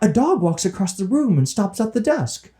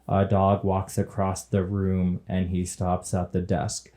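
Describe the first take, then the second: First: It is said with exaggerated expression. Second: It is said in a flat monotone.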